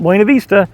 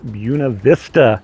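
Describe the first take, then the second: First: It uses the usual Spanish-style way of saying it. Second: It uses the local way of saying the name. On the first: The speaker calls it wrong. "not Buena Vista" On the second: The speaker calls it right. "Here it is pronounced Buena Vista"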